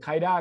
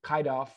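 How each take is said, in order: First: The two words are blended into one reduced word. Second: The two words are said separately in full. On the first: "มันพี่ออกเสียง kinda ก็ได้นะ" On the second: "ทีนี้มันมีคำนี้"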